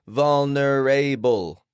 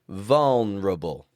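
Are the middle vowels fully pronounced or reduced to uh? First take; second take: full; reduced. First: Every vowel is pronounced fully and carefully. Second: The middle vowels are quick, quiet uh sounds. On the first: The speaker calls it wrong. "every letter pronounced perfectly" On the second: The speaker calls it right. "Replace those with schwas, uh sounds, to keep them quick and quiet"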